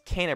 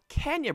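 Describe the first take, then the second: First: The name has no 'y' glide before the end. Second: The name has a 'y' glide, like Kenya. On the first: The speaker calls it right. "it is pronounced as Kena" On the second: The speaker calls it wrong. "Not Kenya Bridge of Spirits like I thought it was pronounced"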